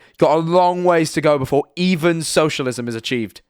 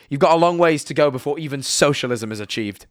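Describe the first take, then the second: First: "long" stretched out for emphasis; emphatic repeat. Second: Said in the usual way. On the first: Real, not acted. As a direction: lean on "long" and "even" to drive it home.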